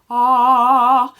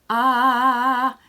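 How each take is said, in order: First: Loud, forward sung ah with tuba lips; sung, push the ah outward like a tuba; sung, focused tuba ah. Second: Spread, unfocused sung ah; sung, let the ah go loose and spread. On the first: Sung, voice coach showing the focused tuba-lip ah. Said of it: "focus it outward like a tuba". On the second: Sung, voice coach showing the unfocused ah. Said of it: "it can be this way". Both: Shown as a demonstration.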